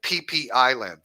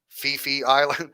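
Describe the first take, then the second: First: The name is said with P sounds. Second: The name is said with F sounds. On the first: The speaker calls it right. "It's just P P" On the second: The speaker calls it wrong. "don't pronounce it like a F"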